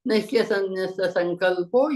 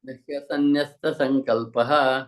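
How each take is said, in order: First: The last word ends in 'o', running straight on. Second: The last word ends in 'ah-ha', then a break. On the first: The verse line is recited without a split. "if you continuously say" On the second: The verse line is split here. "If you have to bake, that will be visarga there"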